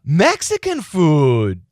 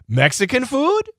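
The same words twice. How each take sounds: First: It is said as a confirmation. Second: It is said as a question. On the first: The listener confirms what was said. "Or you can echo as a confir- confirmation" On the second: The listener checks what was said. "You can echo as a question"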